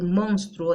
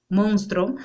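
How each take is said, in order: First: Said in the usual way. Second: "monstruo" without its u, as "monstro"; drawn-out "monstruo" reduced to "monstro"; common mispronunciation. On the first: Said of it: "en vez de decir monstruo". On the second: Shown as a demonstration. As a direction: drop the u in "monstruo": MONS-tro. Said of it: "decimos monstruo".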